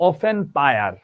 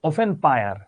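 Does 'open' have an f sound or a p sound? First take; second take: f sound; f sound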